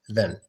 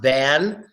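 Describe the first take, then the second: First: The vowel is a quick, reduced schwa. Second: The vowel is full and clearly open. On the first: The word is said inside a sentence. "the A gets the schwa sound, which is a quick pronunciation of the vowel" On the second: The word is said on its own. "Individually, it's pronounced than"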